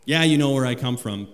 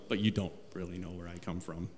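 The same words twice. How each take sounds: First: Louder, pressing each word; preacher voicing Jesus, conceding firmly to the crowd; emphatic concession. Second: Much softer and lower, nearly under the breath; preacher voicing Jesus, turning the point with a low hush; hushed undertone. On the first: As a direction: grant the point out loud. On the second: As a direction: lean in and say the secret quietly. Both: Shown as a demonstration.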